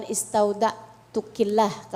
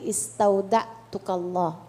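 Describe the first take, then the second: First: "istaudatukillah" said slowly with -killah ending; slow teaching of "istaudatukillah", the form for women; feminine form. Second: "istaudatukalllah" said slowly with -kallah ending; slow, lower "istaudatukalllah", the form for men; masculine form. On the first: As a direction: demonstrate "istaudatukillah" with an i after the k. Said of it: "kalau perempuan". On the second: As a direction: demonstrate "istaudatukalllah" with an a after the k. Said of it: "kalau laki-laki". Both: Shown as a demonstration.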